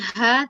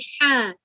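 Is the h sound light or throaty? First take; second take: light; throaty. First: The h is a plain, light breath. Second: The h is tight, from the mid-throat. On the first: The speaker calls it wrong. "bukan ha" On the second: The speaker calls it right. "di tenggorokan bagian tengah ya"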